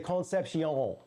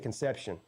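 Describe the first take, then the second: First: The name ends with a 'see-on' sound. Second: The name ends with a 'shun' sound. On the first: The speaker calls it right. "You have to say Concepcion" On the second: The speaker calls it wrong. "You can't say Conception"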